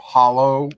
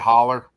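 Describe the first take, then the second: First: Standard pronunciation, ending in an 'oh' sound. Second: Appalachian pronunciation, ending in an 'er' sound.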